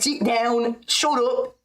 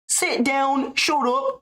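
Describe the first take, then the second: First: The voice is rougher and more raspy. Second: The voice is smoother and less rough.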